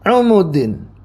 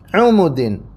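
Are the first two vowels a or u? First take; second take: u; u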